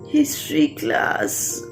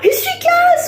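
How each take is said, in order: First: It is said in a bored, reluctant tone. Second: It is said in an excited, eager tone. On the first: The speaker dreads the class. "Or did we feel like this?" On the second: The speaker looks forward to the class. "Did we ever feel like this?"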